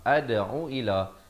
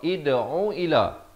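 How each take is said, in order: First: The word begins with an a vowel. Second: The word begins with an i vowel. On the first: "Dia baca dengan baris fathah" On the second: "baca dengan baris kasrah"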